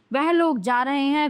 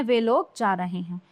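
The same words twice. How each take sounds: First: "वह लोग" read with the tune open; "वह" offered as the faulty form; wrong example. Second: "वे लोग" said lower; correct example. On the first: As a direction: keep "रहे हैं" up. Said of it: "ये तो अशुद्ध वाक्य हैं". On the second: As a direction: drop the tune through "रहे हैं". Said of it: "ये शुद्ध हैं". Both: Shown as a demonstration.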